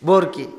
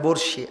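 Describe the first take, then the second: First: The second syllable starts with a k sound. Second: The second syllable starts with an sh sound. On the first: This is how the local listeners say it. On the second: This is the standard form.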